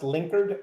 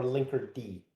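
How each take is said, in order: First: "linkered" run together, ending in a plain d; "linkered" in two syllables, no separate D; Linkerd as one word. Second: "linker D" with the letter D named; "linker D" ending in a full "dee" syllable; Linkerd with separate D. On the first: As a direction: say "linkered" like a past-tense word. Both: Shown as a demonstration. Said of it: "is it pronounced linkered or linker D".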